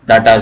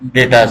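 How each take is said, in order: First: The first vowel sounds like 'ah' in father. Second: The first vowel sounds like 'ay' in day. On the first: The speaker calls it right. "शायद डाटा pronunciation सही होता है" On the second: The speaker calls it wrong. "डेटाज नहीं"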